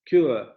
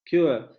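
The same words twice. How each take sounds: Both takes have the same delivery.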